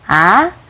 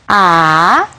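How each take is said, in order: First: The pitch rises like a question. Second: It is said with the third tone. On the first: "el segundo tono, que es como un tono de pregunta" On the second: "el tercer tono"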